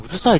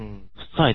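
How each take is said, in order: First: Said in the usual way. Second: 「うっさい」と小さい「っ」で詰めて; 「うっさい」を関西弁風に短く詰める; 関西弁. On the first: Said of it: "うるさいっていうの関西弁で言うとどうなる？". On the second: Shown as a demonstration. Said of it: "関西弁で言うとどうなる？". (関西弁で「うっさい」と詰めて)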